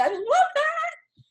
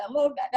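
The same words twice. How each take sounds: First: Much higher, slow delighted squeal; gushing. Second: Said in the usual way. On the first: Real, not acted. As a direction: stretch "I love that" way up high and slow. Repeats comment, then gushes it.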